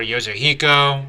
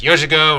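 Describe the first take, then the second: First: "Yozuhiko" said in four syllables, yo-zo-HEE-ko; pronunciation option. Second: "Yozugo" said in three syllables, YO-zu-go; pronunciation option. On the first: Reviewer unsure of a move's name tries "Yozuhiko" as yo-zo-HEE-ko. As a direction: say "Yozuhiko" with an added "hee" before "ko". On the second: Reviewer unsure of a move's name tries "Yozugo" as YO-zu-go. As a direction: say "Yozugo" short, ending in plain "go". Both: Shown as a demonstration. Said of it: "Not sure if it's pronounced".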